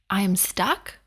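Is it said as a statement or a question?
question. It is said as a questioning rise.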